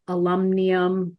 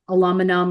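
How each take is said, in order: First: It is said with a British pronunciation. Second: It is said with an American pronunciation.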